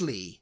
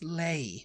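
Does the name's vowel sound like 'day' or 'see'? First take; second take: see; day. First: The vowel sounds like the one in see. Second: The vowel sounds like the one in day. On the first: It is the usual name, only spelled differently. "but it's Lee" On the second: The unusual spelling suggests a different name. "He spelt his name L E I G H. And I was just like, that's Lay"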